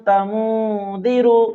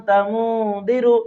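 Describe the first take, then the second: Both takes have the same delivery.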